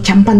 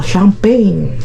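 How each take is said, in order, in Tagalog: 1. Binibigkas ito nang payak, parang Espanyol. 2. Binibigkas ito nang malambing, matamis, at mahaba ang pagkakabigkas. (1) "champan kasi ang big kasi Espanyol" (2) "Ganon. Kapag malamya, mal malambing"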